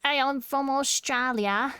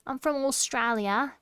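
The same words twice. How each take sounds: First: Mock-aggressive Aussie, drawn out; aggressive Australian. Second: Attempted cutesy Australian; Australian uwu voice. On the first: Streamer showing chat their picture of Aussies, mock-aggressive Australian. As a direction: push out a pugnacious Australian accent. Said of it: "I always do it really aggressive". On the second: Streamer testing accent in uwu voice, cutesy mock Australian. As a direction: soften the Aussie accent into an uwu voice. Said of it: "that's hard to do in an Uwu". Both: Shown as a demonstration.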